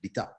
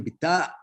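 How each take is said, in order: First: The vowel is kept short. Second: The vowel is held long. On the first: This is the Judeo-Arabic form. "in Judeo-Arabic, bita, not long" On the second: This is the standard Egyptian Arabic form. "long, in standard uh, Egyptian Arabic"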